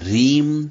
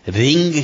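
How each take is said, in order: First: The word ends in an 'm' sound. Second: The word ends in an 'ng' sound. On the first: The speaker calls it right. "आपको बोलना है मां शब्द बोलना वहां पे अम की बिंदी पे" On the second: The speaker calls it wrong. "रिंग शब्द का प्रयोग नहीं करें"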